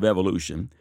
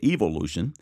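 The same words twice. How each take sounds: First: It is said in an American accent. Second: It is said in an English accent.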